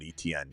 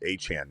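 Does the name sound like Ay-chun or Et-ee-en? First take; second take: Et-ee-en; Ay-chun. First: The name is said as three syllables, Et-ee-en. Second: The name is said as two syllables, Ay-chun. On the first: This is how other people usually say the name. The speaker calls it wrong. "not Etienne" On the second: This is how the owner of the name says it. The speaker calls it right. "my name's Achan, not Etienne. It's pronounced Achan"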